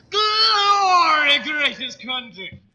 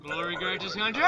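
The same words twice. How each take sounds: First: Very high, loud bellow, slowing on greatest country; hammed-up patriotic shout; patriotic cry. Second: Said in the usual way. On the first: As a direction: roar the motto like a rally cry.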